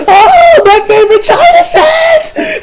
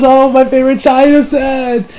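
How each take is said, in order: First: High wailing shriek, loud and drawn out; mother's anguished screech. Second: Said in the usual way. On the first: Retold or imitated. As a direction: howl over the broken china set, slow. Mother shrieking over broken cup. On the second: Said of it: "You know, she still does".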